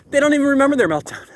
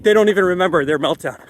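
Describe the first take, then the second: First: Higher and faster, with amazed emphasis on "they"; excited repeat. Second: Said in the usual way. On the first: Shown as a demonstration. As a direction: say it again, marvelling at "they", quick and high.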